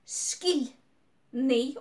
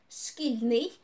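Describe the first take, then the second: First: "шкільний" split, шкіль, long pause, ний; syllable by syllable. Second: Said in the usual way. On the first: Shown as a demonstration. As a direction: sound out "шкільний" in two separate parts. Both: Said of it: "also two syllables".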